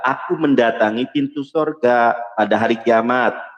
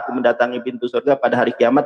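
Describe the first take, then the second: First: It is read slowly. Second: It is read fast.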